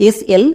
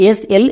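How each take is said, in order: The two takes are said the same way.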